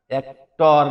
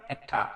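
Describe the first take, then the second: First: "অ্যাক্টর" as "ek-tor" with full o and r; wrong actor sound. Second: "অ্যাক্টর" as a softer "ek-ta", r dropped; correct actor sound. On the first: Teacher shows the mistake, "অ্যাক্টর" as "ek-tor". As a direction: hit a round, louder "tor" in "অ্যাক্টর". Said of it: "অ্যাক্টর না". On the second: Teacher models actor for learners, "অ্যাক্টর" as soft "ek-ta". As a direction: let the end of "অ্যাক্টর" fall away to "ta". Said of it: "কিন্তু অ্যাক্টরের মতোই". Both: Shown as a demonstration.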